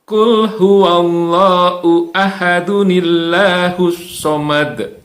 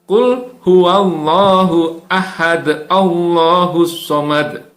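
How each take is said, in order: First: Ahad links into the next word with an n. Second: Ahad ends on a bounced d without an n. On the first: The speaker calls it right. "gunakan dengan cara yang benar" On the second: The speaker calls it wrong.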